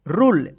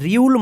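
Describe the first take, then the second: First: It is one syllable with plain 'oo'. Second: A 'y' glide follows the r. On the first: The speaker calls it right. "आप इसको पढ़ेंगे रूल" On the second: The speaker calls it wrong. "ये रूल रियूल मत पढ़िएगा"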